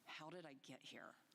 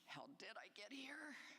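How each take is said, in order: First: It sounds like a firm, assertive statement. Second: It sounds like a puzzled, open question. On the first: The listener affirms having arrived. "You might say it with an affirmative tone" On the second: The listener wonders how it happened. "you may say that with a questioning tone"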